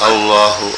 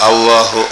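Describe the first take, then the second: Both takes have the same delivery.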